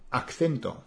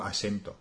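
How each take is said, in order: First: "acento" said with two Cs, "ak-thento"; double C. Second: "acento" with a soft S, "asento"; Mexican pronunciation. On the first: Explaining the learner error, "acento" with two Cs. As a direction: sound the C twice in "acento". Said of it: "con dos Cs". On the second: Contrasting Mexico, "acento" with an S. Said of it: "en México". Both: Shown as a demonstration.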